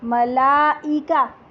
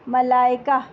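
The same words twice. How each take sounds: First: The middle catch is sounded separately. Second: The middle catch is blended into the vowel. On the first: This is the Arabic way of saying it. "अगर हम अरबी accent में पढ़ेंगे" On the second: This is the usual Urdu way of saying it. "हमज़ा Urdu में जिस तरह पढ़ा जाता है"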